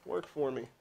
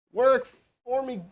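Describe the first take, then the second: First: Said in the usual way. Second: Higher, drawn-out begging; exasperated plea, slowed right down; slow pleading plea. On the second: Real, not acted. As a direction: stretch it out, begging the phone to work. Pleading with device, third try.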